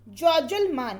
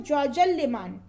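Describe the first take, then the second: First: ज्वजलमान without the y glide; falsche Aussprache. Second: Said in the usual way. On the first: Shown as a demonstration. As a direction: say ज्वजलमान with plain l straight into m. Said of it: "तो इसका शुद्ध होता है". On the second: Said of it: "इसका शुद्ध होता है".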